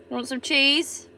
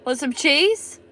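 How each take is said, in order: First: Said in the usual way. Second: Slower, laughing through the offer; amused teasing repeat. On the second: Shown as a demonstration. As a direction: say it again while chuckling.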